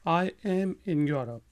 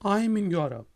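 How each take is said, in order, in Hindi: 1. I और am अलग शब्दों की तरह बोले जाते हैं। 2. I और am एक ही सिलेबल में जुड़ जाते हैं।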